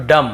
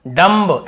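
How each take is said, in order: First: डम ending on m, no b; silent b. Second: डम्ब with the final b sounded; wrong pronunciation. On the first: Teacher showing the rule, डम with b left silent. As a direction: let डम finish with the lips shut on m. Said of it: "यहाँ पर भी बी को नहीं पढ़ना है". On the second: Teacher showing the reading without the rule, डम्ब ending in b. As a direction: end डम्ब on an audible "mb". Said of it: "ब का उच्चारण करते". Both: Shown as a demonstration.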